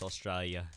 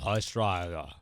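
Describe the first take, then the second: First: Put-on "Australia" said softly in a failing Aussie accent; un-Australian pronunciation. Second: "Australia" mashed into one slurred syllable; single-syllable Australia. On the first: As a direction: let "Australia" slip out softly, poorly accented. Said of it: "I gotta stop saying that word". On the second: Shown as a demonstration. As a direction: squash "Australia" together in an exaggerated fake accent. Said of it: "morphing into just sort of a single syllable".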